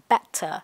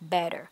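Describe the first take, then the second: First: It is said in a British English accent. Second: It is said in an American English accent. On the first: "anh Anh sẽ phát âm là" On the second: "anh Mỹ thì sẽ phát âm là"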